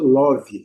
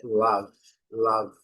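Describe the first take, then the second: First: Love said lovi with an open O and an added final i; love the Brazilian way, lɔvi with an extra vowel. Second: Love said lav, ending cleanly on V; love with a short A-like vowel and no final i; English love. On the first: Teacher showing the common Brazilian love. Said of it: "a gente tem o hábito de dizer no Brasil". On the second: Teacher contrasting the correct love with the Brazilian one. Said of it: "a transcrição fonética é". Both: Shown as a demonstration.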